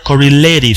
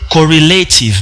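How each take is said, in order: First: The t is tapped like a quick r. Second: The t is a clear t sound. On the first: "mais en anglais américain, on va lire correlative. C'est ce que nous appelons la vibration" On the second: "En anglais britannique, on va dire, on va lire correlative"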